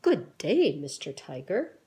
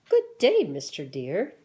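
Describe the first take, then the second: First: Louder, stiffly proper society voice; prim proper greeting. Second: Much higher and louder, prissy proper society voice; prim proper greeting, higher. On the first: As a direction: greet him like a very proper gentleman. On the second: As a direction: answer in a squeaky, overly proper tone. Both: Acted. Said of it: "And they talk like this".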